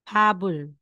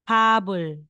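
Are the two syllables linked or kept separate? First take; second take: linked; linked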